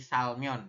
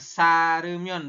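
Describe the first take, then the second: First: The 'l' runs straight into 'mion'. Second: An extra vowel is added before 'mion'. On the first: The speaker calls it right. "tapi salmion ya" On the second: The speaker calls it wrong. "Bukan saremion bukannya"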